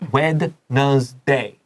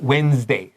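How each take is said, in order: First: Every written letter is sounded out. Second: It is said the usual, everyday way. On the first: The speaker calls it wrong. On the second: The speaker calls it right.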